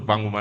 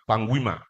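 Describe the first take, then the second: First: The middle of the name sounds like 'goo'. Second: The middle of the name sounds like 'gwee'. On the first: The speaker calls it wrong. "people they call her Panguma... Not to Panguma" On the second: The speaker calls it right. "now Panguima"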